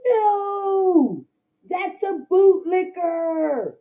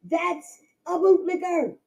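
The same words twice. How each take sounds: First: Drawn out, emphatic bootlicker; bootlicker stressed. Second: Said in the usual way. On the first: Real, not acted. Scolding bootlickers in the chat, slow emphatic bootlicker. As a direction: hammer down bootlicker, slow and pained.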